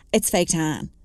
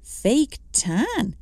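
First: A touch of smugness, understated; mildly smug know-it-all. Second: Incredulous echo, pitched up; a light incredulous repeat; disbelieving. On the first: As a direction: say it lightly self-satisfied. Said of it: "she said smugly". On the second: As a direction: question it in mild disbelief. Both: Acted.

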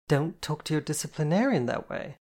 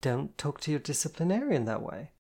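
First: Firm, higher-pitched reprimand; stern telling-off. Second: Measured, serious warning; controlled, firm reminder. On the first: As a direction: scold with authority, stressing the key word. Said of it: "Jen said sternly". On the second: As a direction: repeat the rule evenly, without raising the voice. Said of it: "Jen said seriously". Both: A narrator's reading.

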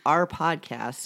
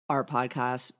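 First: "our podcast" drawn out slowly in an odd accent; accented pronunciation. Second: Said in the usual way. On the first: Real, not acted. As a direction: stretch each word of "our podcast", over-enunciated after a stumble. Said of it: "That was a nice accent". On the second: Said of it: "can't speak".

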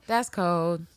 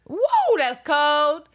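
First: Said in the usual way. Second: Much higher and louder, squealed; shocked reaction. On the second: Real, not acted. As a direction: yelp it out like it's freezing. Reacting to the temperature.

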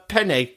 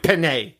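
First: Said in the usual way. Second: "penne" as imagined Italians would say it; imagined Italian correction. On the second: Retold or imitated. Imagined Italians beg her to correct it, "penne" ending in "ay". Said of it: "Italian people up and down the country being like".

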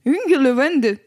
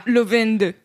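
First: "Hungerlevende" dit d'un seul tenant, sans assurance; prononciation hésitante. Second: "Lovende" détaché, comme second mot à part; en deux mots. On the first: Real, not acted. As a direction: tente "Hungerlevende" comme un seul mot norvégien. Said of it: "pas sûre de le prononcer correctement". ("Hungerlevende", prononciation norvégienne approximative) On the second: Shown as a demonstration. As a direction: articule "Lovende" seul après un arrêt. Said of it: "Enfin, c'est deux mots". ("Lovende", prononciation norvégienne tâtonnante)

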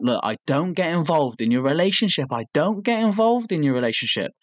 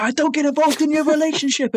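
First: Mock calm, pitch creeping higher; starting off calm. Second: Very high imitated yell; hyped-up mock anger. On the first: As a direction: imitate someone keeping calm, with strain building. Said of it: "he's starting to calmly say". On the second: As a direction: imitate someone losing it, voice shooting up. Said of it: "so hyped up that eventually the anger".

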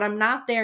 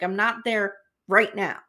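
First: Said in the usual way. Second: Retold line with emphasis on "now"; stress on NOW. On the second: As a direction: set off "right now", landing firmly on "now". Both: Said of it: "he keeps emphasizing now".

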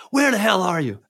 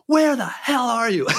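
First: Slightly higher mock anger; imitating the caller's first outburst; retold angry demand. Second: High, slow, drawn-out angry demand; mock furious yell. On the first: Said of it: "he's super pissed off". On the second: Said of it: "He's even more pissed off".

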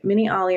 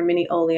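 First: Miniali with an "AH-lee" ending; alternative pronunciation. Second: Minioli with an "OH-lee" ending; alternative pronunciation. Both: Shown as a demonstration. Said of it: "I don't know how you, um, pronounce it".

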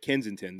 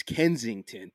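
First: "Kensington" with the g dropped; local pronunciation. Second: "Kensington" with the g sounded, as spelled; careful pronunciation. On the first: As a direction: say "Kensington" like a local, Ken-zin-tin. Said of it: "but I said Kensington. That, that's the, that's a shibboleth". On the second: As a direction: say "Kensington" fully, Ken-zing-ton. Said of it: "spelled Ken-, like, you know, it's Kensington". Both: Shown as a demonstration.

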